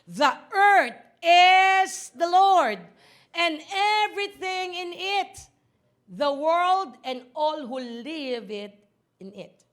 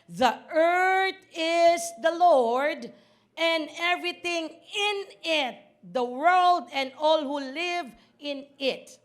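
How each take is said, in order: First: It is read boldly, with strong energy. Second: It is read in a plain, ordinary way.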